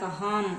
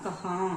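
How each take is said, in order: First: The word ends with a clear m sound. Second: The word ends with a nasalized vowel. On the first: The speaker calls it wrong. "கஹாம் அப்படின்னு சொல்ல மாட்டோம்" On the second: The speaker calls it right. "ரெண்டு சவுண்டுமே இல்லாம கஹா, அந்த மூக்குல அந்த sound வரும்"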